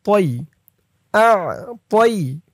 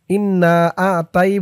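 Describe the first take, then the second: First: তই with the heavy emphatic t; correct pronunciation. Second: The common mistake, তাই with plain t; wrong pronunciation. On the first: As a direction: say তই with the hard heavy ত. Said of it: "বলতে হবে". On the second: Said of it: "অনেকে বলে ইন্না আ তাই বলে". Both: Shown as a demonstration.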